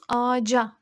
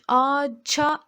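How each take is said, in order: First: The consonant before the last vowel is j. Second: The consonant before the last vowel is ch. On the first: The speaker calls it right. "ağaca diyoruz" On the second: The speaker calls it wrong. "Ağaça demiyoruz"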